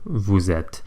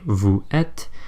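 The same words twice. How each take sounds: First: The S of vous is sounded as a Z. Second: The S of vous is silent before êtes. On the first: The speaker calls it right. "suddenly we're pronouncing this S, albeit as a Z sound" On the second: The speaker calls it wrong. "we don't say vous êtes"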